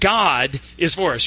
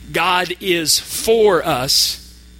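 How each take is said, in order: First: The stress is on the word God. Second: The stress is on the word for. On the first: It is God, and no one else, who is on our side. "we're going to emphasize each word. The first time" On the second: God is on our side, not against us. "The word for"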